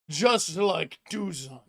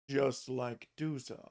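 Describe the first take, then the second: First: It is said without the character's voice. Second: It is said in the character's put-on voice.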